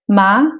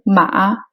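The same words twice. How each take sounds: First: The syllable is said with a rising pitch. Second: The syllable is said on a low pitch. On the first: "c'est le ton montant" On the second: "c'est le ton bas"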